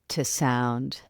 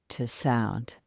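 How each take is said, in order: Both takes have the same delivery.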